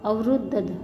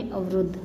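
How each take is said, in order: First: अवरुद्ध as "avrud-dh", in parts; split syllables. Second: Said in the usual way. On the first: Shown as a demonstration. Teacher breaking down the conjunct, अवरुद्ध split up. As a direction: pull apart the conjunct in अवरुद्ध. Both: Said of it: "इसको बोलेंगे".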